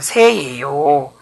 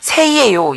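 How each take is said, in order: First: The ending is contracted to two syllables. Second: The ending is said in full, with three syllables. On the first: The speaker calls it right. "그래서 새예요" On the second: The speaker calls it wrong. "이상하잖아요"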